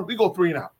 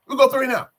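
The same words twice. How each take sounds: First: Said in the usual way. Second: High, loud exasperated repeat; fed-up fan, voice jumping up; frustrated outburst. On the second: Real, not acted. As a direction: cry it out in sheer frustration. Repeats the failed drive in frustration.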